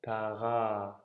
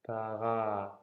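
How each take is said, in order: The two takes are said the same way.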